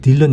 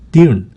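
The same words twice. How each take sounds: First: The L sound is clearly pronounced. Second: The L sound is barely pronounced. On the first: "우리는 그냥 딜런 이렇게 하는데" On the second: "그 L 소리가 거의 안 나고"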